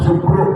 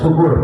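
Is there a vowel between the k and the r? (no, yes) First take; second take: no; yes. First: The k and r are joined with no vowel. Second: A u vowel separates the k and r. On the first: The speaker calls it right. "Syukru jangan syukur" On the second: The speaker calls it wrong. "jangan syukur"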